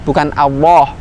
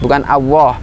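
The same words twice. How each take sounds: No difference in how they are said.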